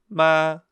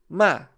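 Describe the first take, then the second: First: It is said with the first tone. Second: It is said with a short, sharply falling tone. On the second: "O quarto é o tom descendente. E ele é curto e grosso"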